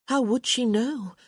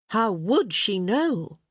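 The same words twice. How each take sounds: First: Said in the usual way. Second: "would" leaned on, slow and drawn out; slow read with heavy weight on "would"; stress on would. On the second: Shown as a demonstration. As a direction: hit the word "would" hard, slowly. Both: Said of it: "Emphasis mine".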